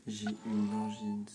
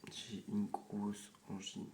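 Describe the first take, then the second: First: Slow, sore-throat voice, a bit louder; swollen tonsils voice. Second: Slow, strained sore-throat voice; swollen tonsils voice. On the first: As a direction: speak carefully through a painful throat. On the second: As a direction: ease the words out over swollen tonsils. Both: Real, not acted. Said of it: "Ça me fait trop mal à la gorge".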